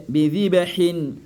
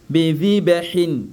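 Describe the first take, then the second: Both takes have the same delivery.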